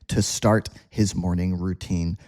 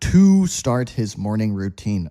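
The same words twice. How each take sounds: First: 'To' is said weakly with a reduced vowel. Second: 'To' is said fully with a clear vowel. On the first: The speaker calls it right. "So we just say" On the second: The speaker calls it wrong. "Ugh, takes too much energy"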